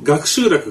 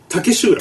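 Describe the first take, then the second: First: The name begins with the sound 'gaku'. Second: The name begins with the sound 'take'. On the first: The speaker calls it wrong. "ずっとあの俺でも言い方間違ってたんだけど" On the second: The speaker calls it right. "本当は"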